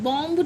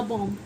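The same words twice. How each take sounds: First: बॉम्ब with a sounded final b; mispronounced bomb. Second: बॉम्ब stopping on m; correct silent b. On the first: Teacher warning nobody says it so, b pronounced. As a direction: let the b pop at the end of बॉम्ब. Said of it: "बॉम्ब नहीं बोलते". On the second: Teacher repeating the usual reading, b silent. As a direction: leave the b off बॉम्ब. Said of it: "बॉम्ब बोलते हैं". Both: Shown as a demonstration.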